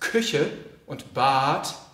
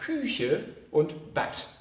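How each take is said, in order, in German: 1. Der Vokal in Bad ist lang. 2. Der Vokal in Bad ist kurz. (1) "im Hochdeutschen heißt es" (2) "Der Norddeutsche sagt ... kurz ausgesprochen"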